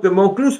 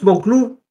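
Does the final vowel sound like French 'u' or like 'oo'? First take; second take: French u; oo. First: The last vowel is a rounded front French u. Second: The last vowel is a rounded back oo sound. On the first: It refers to a closed mountain, a fortress. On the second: It suggests a mountain of the nail.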